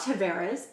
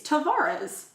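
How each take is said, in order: First: The name is said with an English-style pronunciation. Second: The name is said with a Portuguese-style pronunciation. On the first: The speaker calls it wrong. "it's not Tavares" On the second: The speaker calls it right. "it's Tavares"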